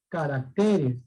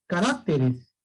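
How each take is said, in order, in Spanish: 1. El acento está en la tercera sílaba. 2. El acento está en la segunda sílaba. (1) "la palabra es caracteres" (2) "no se dice eh, caracteres, no"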